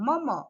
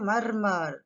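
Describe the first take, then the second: First: The r sounds are silent. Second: The r sounds are clearly pronounced. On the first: "but for us it's silent అమ్మ" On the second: "అదే Americans అయితే మర్మర్ అని చెబుతారు. They pronounce it clearly"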